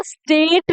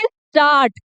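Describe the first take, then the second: First: स्टेट with an E vowel; wrong pronunciation. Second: स्टार्ट with a long aa; correct pronunciation. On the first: Teacher showing students the mistake, E vowel. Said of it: "स्टेट नहीं बोलेंगे". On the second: Teacher to students, long aa in स्टार्ट. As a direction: say स्टार्ट with an open aa. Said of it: "इसका सही बोलने का तरीका है स्टार्ट". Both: Shown as a demonstration.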